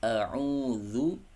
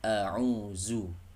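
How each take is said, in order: First: The last syllable uses a soft 'dh' sound. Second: The last syllable uses a buzzing 'z' sound. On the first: The speaker calls it right. "Huruf zal, bukan huruf zai" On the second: The speaker calls it wrong. "bukan a'uzu"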